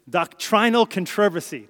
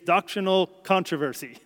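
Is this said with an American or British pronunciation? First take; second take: British; American. First: It is said with a British pronunciation. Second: It is said with an American pronunciation. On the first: "British English pronounces these words differently" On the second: "I would have said in the States"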